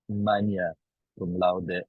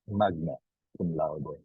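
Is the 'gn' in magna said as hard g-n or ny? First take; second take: ny; hard g-n. First: The gn in magna sounds like ny. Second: The gn in magna has a hard g. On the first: The speaker calls it right. "The pronoun- correct pronunciation is" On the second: The speaker calls it wrong.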